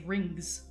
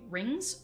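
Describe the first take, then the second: First: The NG is followed by a hard G sound. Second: The NG ends without a hard G sound.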